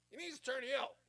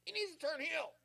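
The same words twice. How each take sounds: First: High, louder nagging repeat; mock fan chant, slightly softened; whiny online fans. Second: High, loud, nagging fan voice; mock the internet crowd demanding a change; a nasal chorus of know-it-all fans; whiny online fans. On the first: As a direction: echo the demand again, a bit calmer. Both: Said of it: "You got the internet wrestling community all just".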